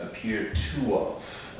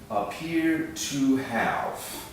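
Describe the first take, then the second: First: The h is dropped and the vowel becomes schwa. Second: The h and full vowel of have are pronounced.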